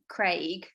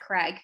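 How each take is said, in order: First: The vowel in the name is long. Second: The vowel in the name is short. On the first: This is how the speaker's own community says it. "we would pronounce that uh, that name Craig" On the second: This is how many people in the States say it. "in the States, I think they a lot of people say Craig"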